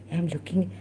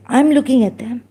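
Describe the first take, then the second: First: Said in the usual way. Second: I'm said louder and pressed; emphatic repeat of I'm looking; stressed restart. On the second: Real, not acted. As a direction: push harder on I'm looking.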